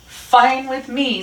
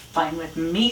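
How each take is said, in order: First: High, loud, drawn-out retort; defiant retort. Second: Understated, private grumble; thinking to oneself. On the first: Rat answers the snarling Dog, high and defiant. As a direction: snap back slowly, pitched way up. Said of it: "said Rat". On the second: Rat thinks alone about lost friends, understated grumble. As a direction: keep it inward and unbothered. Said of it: "thought Rat". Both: A narrator's reading.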